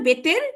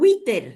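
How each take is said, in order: First: The word begins with a B sound. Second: The word begins with a W sound. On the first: The speaker calls it wrong. "ভুল বলতাম আর কি" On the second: The speaker calls it right. "ওয়াউজের উই"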